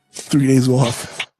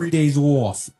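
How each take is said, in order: First: Slow, hammed-up Long Island accent. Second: Mock Long Island accent on three days off. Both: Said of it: "Long Island accent".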